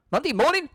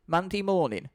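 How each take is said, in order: First: Much higher, shocked repeat; horrified question; alarmed echo. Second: Said in the usual way. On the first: Acted. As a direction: echo it in disbelief.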